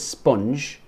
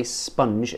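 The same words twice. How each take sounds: First: "sponge" with an O as spelt; imitated learner's sponge. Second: "sponge" with a short U, like "spunj". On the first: Teacher copying a learner's vowel, imitated "sponge" with an O. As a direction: say "sponge" with a short O, like "sponj". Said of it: "She kinda says sponge". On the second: Shown as a demonstration. Teacher correcting a learner's vowel, "sponge" with a U sound. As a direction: say "sponge" as if written with a U. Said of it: "it's more like a U".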